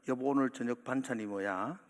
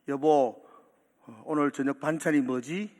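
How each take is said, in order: First: It is said at a normal, quiet volume. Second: It is said louder than before.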